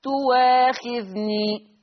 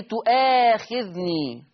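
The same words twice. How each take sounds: First: "تواخذني" with a w glide instead of the glottal stop; long held vowels in "تواخذني", no hamza; hamza becomes waw. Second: "تؤاخذني" slow, with a glottal catch before the long aa; deliberate recited "تؤاخذني" with clear hamza; hamza pronounced. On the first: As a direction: recite "تواخذني" very slowly, gliding from u into waa. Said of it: "فتصير المحصلة". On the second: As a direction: draw out "تؤاخذني", keeping the hamza after the u. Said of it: "بصوا للهمزة تؤا". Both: Shown as a demonstration.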